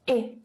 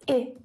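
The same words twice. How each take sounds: First: The vowel is a full short i sound. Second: The vowel is a full short i sound.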